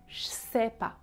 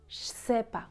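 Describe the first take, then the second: No difference in how they are said.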